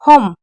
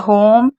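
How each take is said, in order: First: The O vowel is clipped short and quick. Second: The O vowel is drawn out long. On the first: The speaker calls it wrong. "इसको जल्दी कैसे बोलेंगे" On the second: The speaker calls it right. "धीरे बोला जा रहा है तो ई। इसको याद रखिएगा। जैसे होम"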